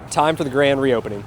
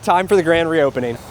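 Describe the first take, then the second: First: It is said with lower energy. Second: It is said with more energy.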